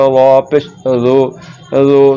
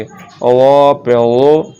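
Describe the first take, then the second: First: ज़ो as a light z sound; wrongly thin letter. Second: वा पे वो slow, thick and rounded; full-mouthed dwo in वो; heavy DAAD. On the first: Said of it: "जाल पढ़ा जा रहा है". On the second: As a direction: spell it out with emphatic वा. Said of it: "मोटा करके पढ़ेंगे". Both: Shown as a demonstration.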